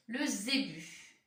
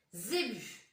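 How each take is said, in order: First: "Le zébu" said slowly, each syllable clear; "Le zébu" drawn out for dictation. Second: Said in the usual way. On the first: Shown as a demonstration.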